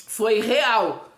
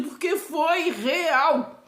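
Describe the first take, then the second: First: Said in the usual way. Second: "foi real" drawn out, each word weighted; slow insistence that it truly happened; emphatic, slow "foi real". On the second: Real, not acted. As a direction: insist it was real, slowly.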